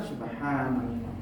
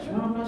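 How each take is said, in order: First: It is said slowly and carefully. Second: It is said fast and hurried.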